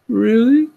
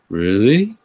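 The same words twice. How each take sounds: First: It is said in a whimpering voice. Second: It is said in an ordinary voice. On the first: The speaker calls it right. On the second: The speaker calls it wrong.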